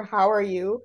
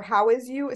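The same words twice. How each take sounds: First: Said in the usual way. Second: Put-on "How is you?" with "is" in place of "are", childlike; childish mistake. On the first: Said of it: "slightly wrong for". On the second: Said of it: "she said it slightly wrong for".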